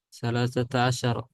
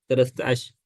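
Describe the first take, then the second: First: The number is said in full with its ending. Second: The number is clipped, dropping its final vowel. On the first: "sebenarnya dia bilang" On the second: "Tapi jadi ... Singkat-singkat"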